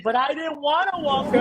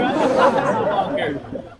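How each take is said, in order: First: Put-on much higher whiny kid protest; imitated crying son. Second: Put-on slow, higher, laughing through the kid's whine; mock the boy while cracking up. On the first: Son protesting to mom after falling, mock whiny cry. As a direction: whine it like a hurt little boy. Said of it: "so he starts crying". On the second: Teasing the son's complaint, slow laughing whine. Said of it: "you making fun of me".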